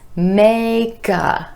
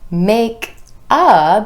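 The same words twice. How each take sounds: First: The k sound links into the next word. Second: The two words are said separately.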